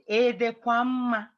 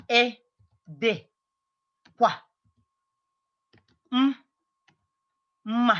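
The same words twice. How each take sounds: First: Said in the usual way. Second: "Ị dịkwa m-, mma" broken into slow pieces with long pauses; sonido por sonido. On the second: Shown as a demonstration. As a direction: spell out "Ị dịkwa m-, mma" by sound, holding the m apart. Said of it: "how I'm pronouncing all these letters".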